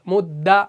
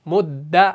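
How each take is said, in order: Both takes have the same delivery.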